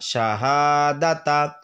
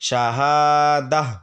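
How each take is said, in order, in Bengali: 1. শব্দটি একটি পূর্ণ 'ta' ধ্বনি দিয়ে শেষ হয়। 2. শব্দটি একটি হালকা 'h' ধ্বনি দিয়ে শেষ হয়।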